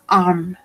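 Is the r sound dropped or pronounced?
dropped. The r sound is dropped or very weak. "en el inglés británico, ellos no pronuncian esta R"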